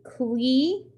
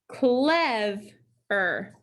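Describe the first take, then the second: First: The first vowel is a long E sound. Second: The first vowel is a short E sound. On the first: The speaker calls it wrong. "if we split right after the vowel" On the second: The speaker calls it right. "that makes the E short"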